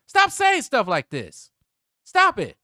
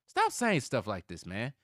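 First: Real outburst, much louder and higher; shouted order, every word hammered out; exasperated shout. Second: Loud, slow telling-off; fed-up plea, higher and louder; exasperated scolding. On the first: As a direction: yell it at full volume, high and slow. Repeats the scolding, shouting. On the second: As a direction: scold him, raised voice, drawing the words out. Scolding the player, first take. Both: Real, not acted.

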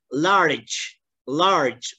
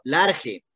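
First: "Large" with an English "larch"-like ending; correct English pronunciation. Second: "large" read the Spanish way as "lar-he"; wrong Spanish reading. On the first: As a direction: model the right English "Large". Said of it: "No vamos a leer la palabra". ("Large" bien pronunciado en inglés) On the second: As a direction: mimic the student's wrong "large". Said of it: "No vamos a leer la palabra que suelen decirlo". ("large" leído a la española, "lar-je") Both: Shown as a demonstration.

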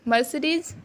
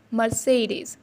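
First: Mercedes as mer-see-deez, rising; wrong pronunciation. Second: Mercedes as mer-say-deez, slow; slowly, mer-say-deez; correct pronunciation. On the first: Teacher voicing the common mistake mer-see-deez. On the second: Teacher slowly correcting to mer-say-deez. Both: Shown as a demonstration. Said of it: "No, it's wrong".

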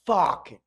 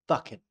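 First: Fucking with an open ah vowel, fahking; Fucking said fahking, London style; fahking with a wide open mouth; Alfie's fucking. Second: Fucking with a short uh vowel, fuhking; fucking said fuhking, American style; fuhking with a relaxed mouth. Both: Shown as a demonstration. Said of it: "In the American accent, we would say".

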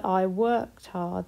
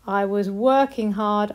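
First: Slowed down, each word clear; slow modelled past tense. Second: Said in the usual way. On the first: Shown as a demonstration. Teacher modelling worked slowly for the class. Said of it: "That one works as well". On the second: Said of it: "read them in a sentence".

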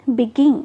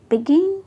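First: begin with the stress on गिन, louder; stress on second syllable. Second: begin said again, गिन lifted higher; stress on second syllable. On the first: Teacher models begin for the class, stressing गिन. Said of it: "किस syllable को हम ज़्यादा trust दे रहे हैं". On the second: Teacher repeats begin for students, stressing गिन. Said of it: "begin, गिन को". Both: Shown as a demonstration.

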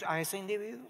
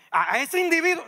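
First: Said in the usual way. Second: Individuo punched loud and high; stress on individuo. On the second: Shown as a demonstration. Preacher singling out a person to the congregation, loud stress. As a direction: hit individuo hard, pointing someone out. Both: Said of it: "A ese que tú estás pensando".

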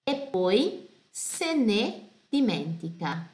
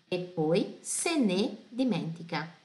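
First: E poi se ne dimentica read slowly, stress on se; slow careful reading. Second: Said in the usual way. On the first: Shown as a demonstration. Teacher reading the lyric slowly for students. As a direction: spell it out slowly. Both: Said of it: "Aqui súplica".

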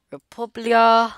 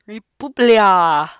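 First: Raised, slow country name; playful proclamation. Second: Very loud, drawn-out "Republia"; exaggerated proclamation. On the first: Pretend. Player reads country on passport, raised slow proclamation. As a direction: call out "Republia" high and drawn out. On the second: Player repeats passport country, booming exaggerated proclamation. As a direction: belt out "Republia" slowly, stretching the ending.

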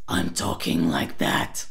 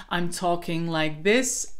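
First: Low growly rattled take; rattle voice. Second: Said in the usual way. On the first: Shown as a demonstration. Coach shows the transfer exercise, rattle voice. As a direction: switch into a deep raspy rattle. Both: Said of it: "try this transfer exercise in one breath".

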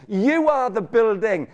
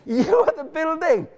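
First: "You" hit first, slow and firm; slow, stressed "You". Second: "are" pushed higher with rising energy; high, emphatic "are"; stress on are. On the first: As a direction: lean hard on "You". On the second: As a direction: lift and press "are". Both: Shown as a demonstration.

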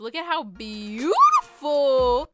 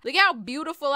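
First: Slow, with BEAUTIFUL stretched out; odd drawn-out emphasis. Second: Said in the usual way. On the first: Real, not acted. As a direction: draw out "beautiful" dramatically, rising on it. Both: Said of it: "I don't know why I said it like that".

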